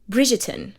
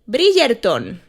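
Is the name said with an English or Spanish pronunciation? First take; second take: English; Spanish. First: The name is said with an English pronunciation. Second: The name is said with a Spanish pronunciation. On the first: This is the standard pronunciation. The speaker calls it right. "that is how it's pronounced" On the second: This is how people in Spain say it. The speaker calls it wrong. "or as I hear in Spain"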